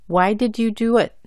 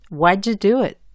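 First: Each word is said clearly and separately. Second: The words run together and link. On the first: "la pronuncio bien y claramente" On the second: "juntando o enlazando las letras"

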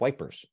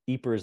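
First: The name is said the British way. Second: The name is said the Flemish way. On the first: "if you're a British, we pronounce it" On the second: "the kind of Flemish name"

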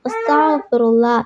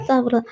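First: Every syllable is pronounced clearly and fully. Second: Syllables are dropped and run together quickly. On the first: Every word comes through so the meaning stays intact. The speaker calls it right. "ഭവ്യതയോടെയും വ്യക്തതയോടെയും ചൊല്ലുക" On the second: Words go missing so the meaning may change. The speaker calls it wrong. "അങ്ങനെ ചൊല്ലിയത് കൊണ്ട് കാര്യമില്ല"

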